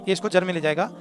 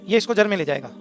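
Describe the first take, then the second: Both takes have the same delivery.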